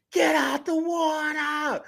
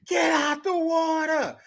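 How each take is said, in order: First: High, loud, slow yell; screaming. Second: High, loud, slow yell; screaming again. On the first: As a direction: scream the warning. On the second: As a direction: scream the warning once more. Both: Retold or imitated. Repeated scream warning.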